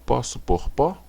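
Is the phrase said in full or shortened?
full. Each word is said in full.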